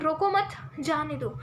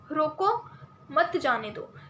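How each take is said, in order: First: The pause comes right after मत. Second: The pause comes right after रोको.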